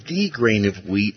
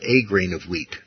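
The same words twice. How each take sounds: First: THE said as a full "thee" before grain; stress on THE. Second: A said as a full "ay" before grain; stress on A. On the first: Teacher clarifying the Greek article, stressed THE. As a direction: lean on "the", pronounced "thee". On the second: Teacher rejecting the translators' article, stressed A. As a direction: lean on "a", pronounced like the letter. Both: Shown as a demonstration. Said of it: "pointing out that the Greek has it as".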